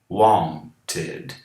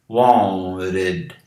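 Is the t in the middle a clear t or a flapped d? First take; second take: clear t; flapped d. First: The middle t is a clear t sound. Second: The middle t is flapped like a d.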